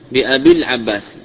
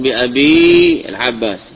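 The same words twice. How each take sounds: First: The long vowel is dropped, linking into al-Abbas. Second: The long vowel of abi is fully pronounced. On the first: The speaker calls it right. "باء مكسورة ثم يأتي عباس" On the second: The speaker calls it wrong. "لا تقل بأبي العباس"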